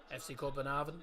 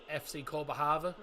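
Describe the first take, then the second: First: The city name has its Danish pronunciation. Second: The city name has its Danish pronunciation.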